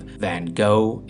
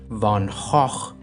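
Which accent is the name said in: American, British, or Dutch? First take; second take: American; Dutch. First: The name is said with an American pronunciation. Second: The name is said with a Dutch pronunciation. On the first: "the American pronunciation of Van Gogh is an abomination" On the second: "using the Dutch Van Gogh seems pretentious and produces phlegm"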